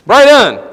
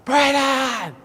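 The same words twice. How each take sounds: First: Loud, high shout for a son; calling out. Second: Long, high drawn-out holler; louder yell. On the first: Father calling into a dark hole for his son, loud shout. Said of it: "So I stick my head down in there". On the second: Father calling his lost son louder, long high yell. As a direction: holler the name, stretched out and high. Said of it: "Now I get louder". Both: Retold or imitated.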